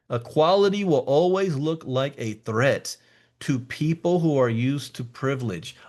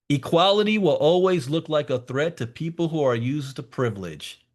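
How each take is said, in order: First: It is said more slowly. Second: It is said at a normal speed.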